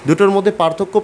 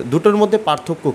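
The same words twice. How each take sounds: The two takes are said the same way.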